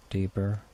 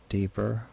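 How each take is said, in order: Both takes have the same delivery.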